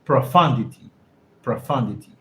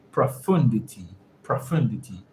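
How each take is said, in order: First: "Profundity" with "fun" as the stressed syllable; "Profundity", short "uh" in the middle, falling at the end; practised pronunciation. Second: "profundity" with an "oo" in the second syllable; "profundity", stressed middle syllable rhyming with "moon"; tentative pronunciation. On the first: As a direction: say "Profundity" as pro-FUN-di-ty, settling it. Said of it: "how do you pronounce profundity like that?". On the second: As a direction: say "profundity" as pro-FOON-di-ty. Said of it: "how do you pronounce profundity". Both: Shown as a demonstration.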